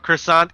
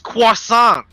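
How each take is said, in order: First: It is said with an American English pronunciation. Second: It is said with a French pronunciation. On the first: The speaker calls it wrong. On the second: The speaker calls it right.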